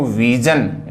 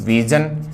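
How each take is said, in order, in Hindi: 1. बीच का व्यंजन कड़ी 'j' ध्वनि है। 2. बीच का व्यंजन नरम 'zh' ध्वनि है। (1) "बोलते हैं इसको विजन" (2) "सही विजन, लेकिन सही उच्चारण जय नहीं"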